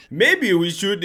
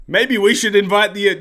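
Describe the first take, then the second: First: Higher, badly faked Danish accent. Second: Said in the usual way. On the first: Danish guy speaking up in council, poor Danish accent. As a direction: attempt a Danish accent and botch it. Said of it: "I'll do the accent ... no, that's bad". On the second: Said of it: "no, I'll do the accent".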